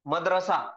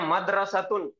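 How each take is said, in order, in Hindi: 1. शब्द सादी 'a' की आवाज़ पर खत्म होता है। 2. शब्द 'tun' की आवाज़ पर खत्म होता है। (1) "उर्दू में हम क्या बोलते हैं?" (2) "ये है मदरसतुन"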